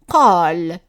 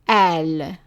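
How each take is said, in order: First: The word starts with a deep q sound. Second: The word starts with a glottal stop. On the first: This keeps the standard qaf in dialect speech. "if we keep the same sound for the qaf" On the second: This is the form used in Lebanon and Egyptian cities. "it's pronounced as an a"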